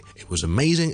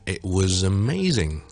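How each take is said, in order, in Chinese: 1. 这个短语说得比较快。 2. 这个短语说得比较慢。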